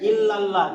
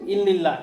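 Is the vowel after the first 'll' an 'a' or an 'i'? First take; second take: a; i. First: The vowel after the first 'll' sounds like 'a'. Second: The vowel after the first 'll' sounds like 'i'. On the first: The speaker calls it right. "কত সুন্দর বললে" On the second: The speaker calls it wrong. "অনেকে বলে কি ইল্লিল্লাহ, ইল্লিল্লাহ কোনো ভাষা নাই"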